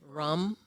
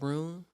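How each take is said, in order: First: The vowel is short, in a Wisconsin accent. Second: The vowel is long, in a standard accent. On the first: "Rum instead of room" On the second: "instead of room"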